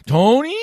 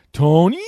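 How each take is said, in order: First: Very high, loud thrilled shout; excited Nance call. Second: High, loud excited shout of the name; excited Nance call. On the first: Retelling the bit a second time, high thrilled shout. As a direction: shriek the name like a thrilled announcer. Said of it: "It just get real excited". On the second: Recalling the comic's Nance bit, high excited shout. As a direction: belt it like a thrilled announcer. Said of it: "his Jim Nance impression come in and go". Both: Retold or imitated.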